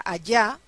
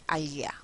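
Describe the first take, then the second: First: "allá" with the ll said as a y sound; with yod. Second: "allá" with a palatal lateral ll, like a-lya. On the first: Teacher showing the yod version of "allá" to students. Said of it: "no se pronuncia allá con yod". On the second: Teacher demonstrating the lateral "allá" to students, quieter. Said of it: "sino que se pronuncia allá". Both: Shown as a demonstration.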